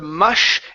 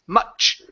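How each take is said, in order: First: The word ends with a soft sh sound. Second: The word ends with a stopped ch sound. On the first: The speaker calls it wrong. "instead of mush" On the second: The speaker calls it right. "it's much"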